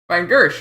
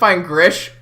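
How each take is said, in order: First: The last name sounds like Gersh. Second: The last name sounds like Grish. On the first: The speaker calls it right. "right? E R S H" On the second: The speaker calls it wrong. "I pronounced it fine Grish the whole time"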